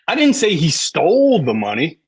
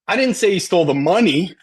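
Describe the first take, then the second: First: The word stole carries the main stress. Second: The word money carries the main stress. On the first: He may have taken it some other way. "Maybe he borrowed it" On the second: He stole something other than the money. "He stole the bike"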